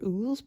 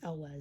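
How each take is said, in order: First: The name is one syllable starting with 'oo'. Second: The name is two syllables, 'el' then 'wes'. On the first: The speaker calls it wrong. "I was always pronouncing it" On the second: The speaker calls it right. "but apparently it's"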